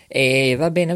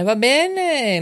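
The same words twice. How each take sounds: First: Said in the usual way. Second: "va bene" sung out much higher, stretched on "bene"; high sing-song. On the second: Acted. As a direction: lilt "va bene" up high with a falling end. Host repeats va bene, sing-song.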